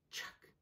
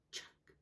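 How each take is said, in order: Both takes have the same delivery.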